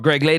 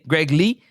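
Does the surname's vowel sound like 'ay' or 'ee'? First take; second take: ay; ee. First: The surname ends in an 'ay' vowel. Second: The surname ends in an 'ee' vowel. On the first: "I say Lay"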